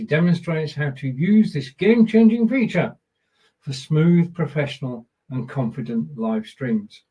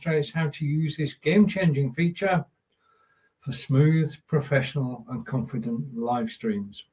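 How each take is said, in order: First: It is read with more feeling and expression. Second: It is read flatly, without much feeling.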